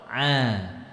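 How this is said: The throat squeeze releases into a clear vowel. The speaker calls it right. "kalau sudah masuk harokat, lepaskan itu"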